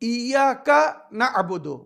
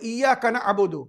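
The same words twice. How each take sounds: First: It is recited slowly with the words apart. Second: It is recited quickly with the words merged. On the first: The speaker calls it right. "আলাদা আলাদা সুন্দরভাবে উচ্চারণ করতে হবে" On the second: The speaker calls it wrong. "যদি কেউ তাড়াতাড়ি বলে"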